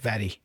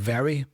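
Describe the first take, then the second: First: The R is a quick tap of the tongue. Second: The R is a smooth, untapped sound. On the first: "that flapped uh, R sound" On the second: "Not very"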